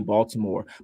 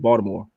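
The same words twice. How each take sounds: First: It is said in an outsider's way. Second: It is said the way locals say it.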